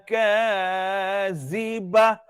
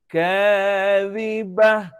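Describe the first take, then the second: First: The middle consonant is a hissing z sound. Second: The middle consonant is a light dh sound. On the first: The speaker calls it wrong. "Tak boleh desir pada huruf zal. Tak boleh baca" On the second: The speaker calls it right. "huruf zal ni dia ringan"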